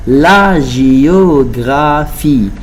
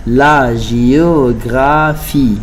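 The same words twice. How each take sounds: The two takes are said the same way.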